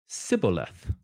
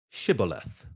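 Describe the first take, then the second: First: The word begins with an 's' sound. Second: The word begins with a 'sh' sound. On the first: The speaker is revealed as an outsider. The speaker calls it wrong. "He said it with a s" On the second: The speaker belongs to the local group. The speaker calls it right. "So they say it with a sh"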